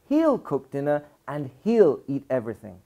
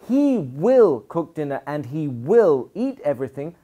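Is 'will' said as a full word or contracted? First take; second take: contracted; full. First: Will is shortened and joined to he. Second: Will is said as a full separate word. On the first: "I can make it shorter" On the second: "Instead of"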